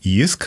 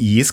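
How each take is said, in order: First: The vowel is pronounced as a 'ü' sound. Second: The vowel is pronounced as an 'i' sound. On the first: The speaker calls it right. "hanem JISK, mert az Y azt Ü-nek ejtik" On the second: The speaker calls it wrong. "azért nem JISK"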